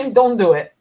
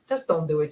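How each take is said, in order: First: "Don't" hit hard and loud; emphatic louder command. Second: Said in the usual way. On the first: Acted. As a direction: bark "Don't do it" as a firm warning. Urging viewers to avoid news.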